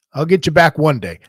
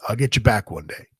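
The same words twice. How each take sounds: First: "I'll get you back one day" raised and louder, hitting BACK; emphatic retold vow. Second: Said in the usual way. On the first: Young wrestler vowing payback to the veteran, emphatic on "back". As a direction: repeat the vow with more push, stressing "back". Same reply repeated with more force.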